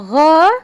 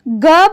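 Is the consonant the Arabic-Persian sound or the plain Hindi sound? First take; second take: Arabic-Persian; plain Hindi. First: The consonant is said the Arabic-Persian way. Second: The consonant has its plain Hindi sound.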